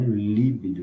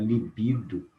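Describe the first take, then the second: First: "líbido" stressed as LI-bi-do; wrong stress on first syllable. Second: "libido" stressed as li-BI-do; stress on middle syllable. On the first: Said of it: "e não líbido". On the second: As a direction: hit the second syllable of "libido". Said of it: "Nas paroxítonas". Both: Shown as a demonstration.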